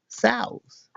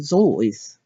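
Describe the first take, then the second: First: The name rhymes with goose. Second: The name rhymes with voice. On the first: The speaker calls it wrong. "you're wrong as the deuce, and you shouldn't rejoice if you're calling him South" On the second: The speaker calls it right. "He pronounced it ... or Zois"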